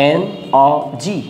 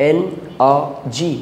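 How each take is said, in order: No difference in how they are said.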